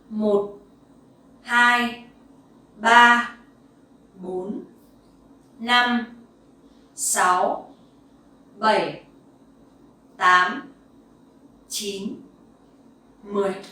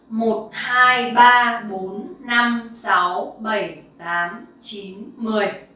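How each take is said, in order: First: It is counted moderately fast. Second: It is counted very fast.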